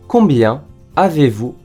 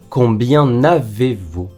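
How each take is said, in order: First: Combien is said without a linking n sound. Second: Combien is linked to avez with an n sound. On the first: The speaker calls it right. "疑問副詞を使った場合もリエゾンしません" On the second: The speaker calls it wrong. "Combien avez-vous とは言いません"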